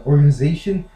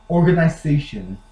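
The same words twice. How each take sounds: First: Organization with a weak middle vowel, organ-uh-ZAY-shun; US-style organization; American pronunciation. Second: Organization with an EYE sound, organ-eye-ZAY-shun; British-style organization; British pronunciation. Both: Shown as a demonstration. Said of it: "What I don't get about British".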